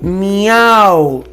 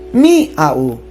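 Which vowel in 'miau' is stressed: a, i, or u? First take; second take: a; i. First: The stress falls on the a. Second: The stress falls on the i. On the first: The speaker calls it right. "Porque se dice miau" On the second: The speaker calls it wrong. "ponerle la mayor fuerza de voz en la i"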